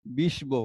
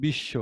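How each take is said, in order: First: বিষ্ব as bish-bo, b sounded; spelling pronunciation. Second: বিশ্ব as bish-sho, b silent; spoken pronunciation. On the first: Teacher reads by the letters, বিষ্ব with audible b. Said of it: "তাই এটি উচ্চারণ করলে হবে". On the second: Teacher shows what we actually say, বিশ্ব with silent b. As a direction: double the sh in বিশ্ব, drop the b. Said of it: "উচ্চারণ করছি". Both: Shown as a demonstration.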